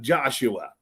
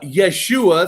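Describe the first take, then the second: First: The name begins with a J sound. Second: The name begins with a Y sound. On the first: "and then you have Joshua" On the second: "silent J"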